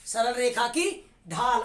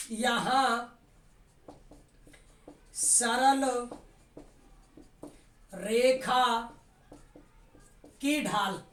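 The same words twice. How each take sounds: First: Said in the usual way. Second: Word by word with long gaps; slow, spaced dictation. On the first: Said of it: "repeats the dictated phrase". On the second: Shown as a demonstration. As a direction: spell it out slowly for note-taking. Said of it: "teacher dictating word by word".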